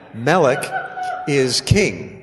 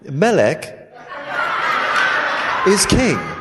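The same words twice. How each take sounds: First: It is said in his normal accent. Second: It is said in a put-on British accent.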